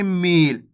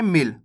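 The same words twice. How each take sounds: First: मील with the ई drawn out long. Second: मिल with a quick short इ. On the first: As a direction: stretch the vowel in मील, meeeel. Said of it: "खींच के मील". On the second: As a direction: clip the vowel in मिल, said fast. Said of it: "छोटी ई की मात्रा लगी हुई तो कैसे पढ़ेंगे". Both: Shown as a demonstration.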